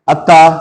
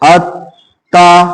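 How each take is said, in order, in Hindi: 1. मध्य व्यंजन को बिना ठहराव के जल्दी से बोला जाता है। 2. मध्य व्यंजन को हल्के ठहराव के साथ बोला जाता है। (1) "ये फिर गलत है" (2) "इसमें मैं थोड़ा सा रुका हूं"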